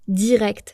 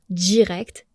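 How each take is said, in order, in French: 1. Le d est une occlusive simple et nette. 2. Le d est affriqué, il se prononce comme 'dj'.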